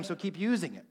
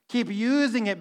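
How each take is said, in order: First: Soft take. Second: Said in the usual way. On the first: Shown as a demonstration.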